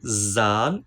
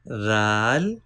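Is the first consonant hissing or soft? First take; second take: hissing; soft. First: The first consonant has a whistling hiss. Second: The first consonant is soft, without a hiss. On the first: The speaker calls it wrong. "With whistle sound, this is wrong pronunciation" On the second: The speaker calls it right. "right pronunciation"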